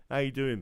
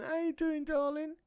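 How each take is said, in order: First: Said in the usual way. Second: Squeaky pet voice. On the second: Real, not acted. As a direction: ask it up high, cooing to a pet. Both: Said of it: "My voice is going funny".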